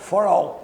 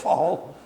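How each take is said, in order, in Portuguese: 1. É pronunciado com pronúncia inglesa. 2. É pronunciado com pronúncia nordestina brasileira.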